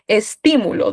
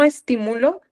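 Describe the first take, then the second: First: The stress falls on the second syllable, ti. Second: The stress does not fall on the second syllable. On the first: It is a noun. "¿dónde está la tilde? En ti" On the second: It is a verb. "Esa no lleva tilde. Obviamente lleva acento"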